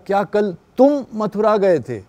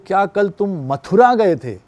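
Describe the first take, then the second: First: The stress falls on the word 'tum'. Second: The stress falls on the word 'Mathura'. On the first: It asks whether this person or someone else went. "तुम ही गए या कोई और चला गया" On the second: It asks whether it was this city or another. "वो मथुरा पे stress कर दिया"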